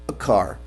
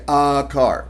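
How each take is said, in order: First: The article is a weak schwa joined to the noun. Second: The article is a full, strong vowel. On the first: The speaker calls it right. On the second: The speaker calls it wrong.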